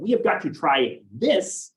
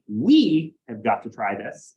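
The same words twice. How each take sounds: First: The word this carries the strongest stress. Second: The word we carries the strongest stress. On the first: This particular available thing should be tried. "it'd be highlighting something that is available" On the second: The group together needs to try it. "it emphasized us together needing to do it"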